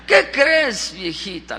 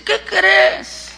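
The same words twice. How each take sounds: First: Pregunta cariñosa. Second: High, eager teasing question; spring it on her in a raised pitch; anuncio juguetón. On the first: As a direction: confide it tenderly to an old wife. Repite la pregunta, más íntima. (pregunta suave y cariñosa) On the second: Abraham trae una noticia a Sara. (pregunta aguda y entusiasmada) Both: Acted.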